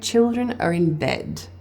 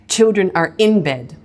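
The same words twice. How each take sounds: First: The accents fall on children and bed. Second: The word in carries a strong accent. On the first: The speaker calls it right. "The accents in that line are on chill and bed, not on the word in" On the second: The speaker calls it wrong. "I would never say children are in bed"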